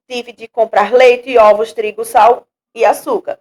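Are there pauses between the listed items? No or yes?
no. The items run together without pauses between them. "sem dar pausa"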